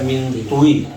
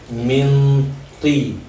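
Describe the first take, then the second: First: A rounded o-like vowel is added after the t. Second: The t goes straight into an i vowel. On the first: The speaker calls it wrong. "jangan bilang mintui karena itu menambah huruf" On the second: The speaker calls it right. "sebutlah dengan cara minti"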